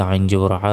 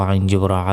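Both takes have the same delivery.

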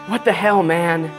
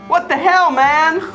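First: It is said in a sultry, sexy voice. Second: It is said in a plain voice.

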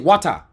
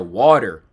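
First: It is said in the local foreign accent. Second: It is said in an American accent.

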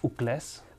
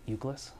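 First: The surname is said in its native form. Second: The surname is said in an anglicized form. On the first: This is the family's own pronunciation. "it's pronounced Ucles" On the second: This is an easier version for English speakers. "for the Anglos, we pronounce it Ucles"

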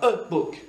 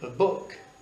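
First: The article 'a' carries the stress. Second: The noun 'book' carries the stress. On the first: The speaker calls it wrong. "Tu ne diras pas « a book »" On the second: The speaker calls it right. "Tu diras « a book »"

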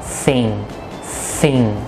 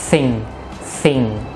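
Both takes have the same delivery.

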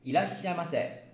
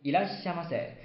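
No difference in how they are said.

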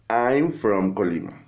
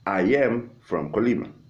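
First: The verb is contracted with the pronoun. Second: The verb is said as a separate word.

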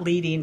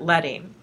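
First: The first vowel sounds like in 'bead'. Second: The first vowel sounds like in 'bed'. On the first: The speaker calls it wrong. "Not leading" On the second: The speaker calls it right. "but leading"

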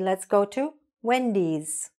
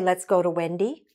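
First: The name ends with an s sound. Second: The name ends without an s sound. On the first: The speaker calls it right. "We say" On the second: The speaker calls it wrong. "We don't say"

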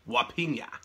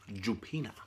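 First: It begins without any J sound. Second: It begins with an English J sound. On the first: The speaker calls it right. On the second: The speaker calls it wrong.

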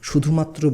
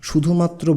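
Both takes have the same delivery.

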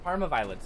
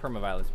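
First: The first word begins with an open 'par' sound. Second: The first word begins with a 'per' sound. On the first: The speaker calls it right. "Parma Parma violets" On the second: The speaker calls it wrong. "not perma violets"

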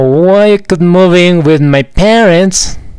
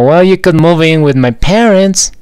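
First: It is said at a slower, connected pace. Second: It is said at a faster pace.

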